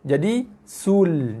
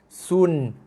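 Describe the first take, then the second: First: The syllable ends with an l sound. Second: The syllable ends with an n sound. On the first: "daripada sun, jadi sul" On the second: "Asalnya, bagi dua bunyi sun"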